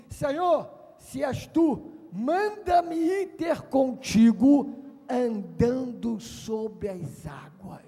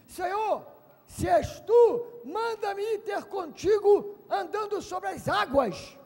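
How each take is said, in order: First: Solemn request. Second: High, loud call; bold request. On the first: Peter declaring his path to Jesus, slow and solemn. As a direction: proclaim each word deliberately. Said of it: "Pedro falou assim". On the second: Peter calling to Jesus on the water, bold cry. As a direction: call boldly across the water. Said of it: "Pedro disse". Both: Acted.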